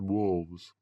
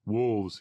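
First: Said in the usual way. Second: Understated quick reply; short, prompt narrated correction; quick answer. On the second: A narrator's reading. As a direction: answer promptly, a touch firmer. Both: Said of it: "he answered quickly".

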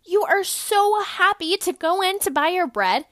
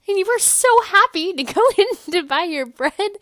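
First: Higher, louder, bouncy and over-happy; giddy exaggerated cheer. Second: Higher, louder, laughing through it; even more over-the-top joy; giddy cheer with a laugh. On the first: Podcaster hamming up the happy shopper, giddy. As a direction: sell the joy of shopping. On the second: Acted. Retelling the shopping trip, giddier, with a laugh. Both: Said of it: "I know I'm being funny".

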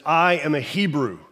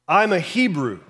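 First: Said in the usual way. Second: I'm a Hebrew, said with a proud lift on I'm; proud declaration. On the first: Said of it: "He says". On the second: Retold or imitated. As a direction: announce it like a badge of identity. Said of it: "I feel like he said it like that".

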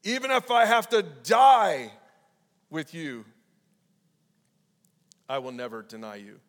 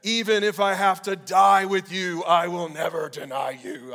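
First: Emphatic shout. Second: Loud, slow, higher vow; Peter's emphatic loyal oath. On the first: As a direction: cry out the vow then let it sink away. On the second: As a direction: swear it with all your chest. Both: A narrator's reading. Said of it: "it says, emphatically".

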